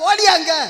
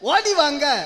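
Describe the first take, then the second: First: It is said merged into one word. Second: It is said as two separate words. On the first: This is how people in Kanyakumari say it. "அத கன்னியாகுமரியில ஓடியாங்க" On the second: This is the ordinary everyday form. "இப்போ ஓடி வாங்க"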